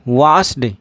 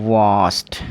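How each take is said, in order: First: The word ends with a d sound. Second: The word ends with a t sound. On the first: The speaker calls it wrong. "वास्ड नहीं, आप बिल्कुल गलत बोल रहे हैं।" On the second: The speaker calls it right. "इसका जो उच्चारण है वो वास्ट करना होगा"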